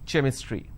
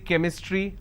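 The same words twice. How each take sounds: First: The word starts with a ch sound. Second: The word starts with a k sound. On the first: The speaker calls it wrong. "I do not say chromium or chrome or chemistry" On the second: The speaker calls it right. "ch becomes k sound. So I say chemistry"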